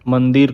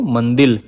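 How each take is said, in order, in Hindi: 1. इस शब्द का अंत 'r' ध्वनि से होता है। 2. इस शब्द का अंत 'l' ध्वनि से होता है। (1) "र और ल साड़ा के माझे लेन देन" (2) "र और ल साड़ा के माझे लेन देन"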